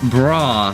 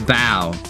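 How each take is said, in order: First: The word is said like 'bra'. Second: The word is said like 'bow'. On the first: The speaker calls it wrong. "I pronounced it like bra, bra, because I thought it was bra" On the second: The speaker calls it right. "But sadly, sadly, it is bow"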